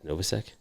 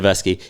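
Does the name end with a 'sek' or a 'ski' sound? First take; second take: sek; ski. First: The name ends with a 'sek' sound. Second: The name ends with a 'ski' sound. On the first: The speaker calls it wrong. "Am I saying that right?" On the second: The speaker calls it right. "I don't know why I always say Novasek"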